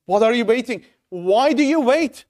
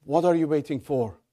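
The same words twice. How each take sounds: First: Urgent. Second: Said in the usual way. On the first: Shown as a demonstration. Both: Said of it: "In modern words".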